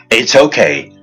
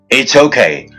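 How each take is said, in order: Both takes have the same delivery.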